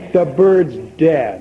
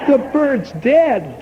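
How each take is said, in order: First: Slow, flat-voiced "The bird's dead." with a falling end; deadpan. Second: Higher, slow "The bird's dead?" rising in disbelief; the owner repeating "The bird's dead?" in slow disbelief; incredulous. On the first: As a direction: drop the news drily and slowly. Customer reports the dead bird. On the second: Acted. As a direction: echo the news as if you can't believe it. Owner hears the news in disbelief.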